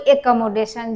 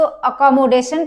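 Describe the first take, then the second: First: The first vowel is an 'eh' sound. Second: The first vowel is a short 'uh' sound. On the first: "कोई एकमोडेशन" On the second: "कोई इसको अकोमोडेशन पढ़ता है"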